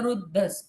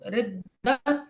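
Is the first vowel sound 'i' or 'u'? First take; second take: u; i. First: The first syllable is said with a u vowel. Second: The first syllable is said with an i vowel. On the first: "रू या री कोई उच्चारण कर सकते हो" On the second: "रू या री कोई उच्चारण कर सकते हो"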